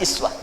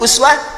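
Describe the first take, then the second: First: The word begins with an i vowel. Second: The word begins with an u vowel. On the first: "bisa i" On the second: "Bisa u"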